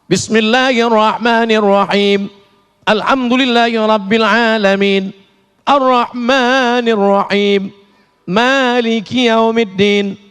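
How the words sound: The reciter stops between each verse.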